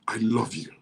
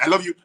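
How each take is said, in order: First: It is said earnestly and deliberately. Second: It is said casually and hurriedly.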